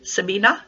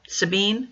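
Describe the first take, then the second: First: The name is said with three syllables. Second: The name is said with two syllables.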